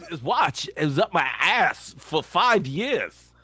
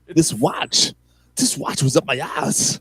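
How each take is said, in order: First: Slow, drawn-out Walken-style deadpan; Walken line. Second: Slow, deadpan Walken-style delivery; Walken line. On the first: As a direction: stretch each word like Walken. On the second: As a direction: drag it out with a heavy deadpan pause. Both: Retold or imitated. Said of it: "I love the pause when he does that".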